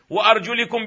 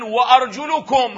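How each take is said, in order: First: وأرجلكم read wa-arjulikum with i vowels; kasra on the mim. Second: وأرجلكم read wa-arjulukum with u vowels, slowly; damma reading. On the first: Teacher quoting the Imams' reading with kasra. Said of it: "بكسر الميم". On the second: Teacher quoting al-Hasan's reading with damma. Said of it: "بالضم قرأها". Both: Shown as a demonstration.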